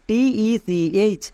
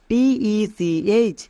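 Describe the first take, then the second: No difference in how they are said.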